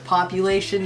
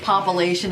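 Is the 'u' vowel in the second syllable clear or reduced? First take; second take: clear; reduced. First: The second-syllable 'u' vowel is said clearly. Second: The second-syllable 'u' vowel is reduced to a schwa. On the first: The speaker calls it right. "instead of population" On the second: The speaker calls it wrong. "when you say population ... you forget that you don't do the U"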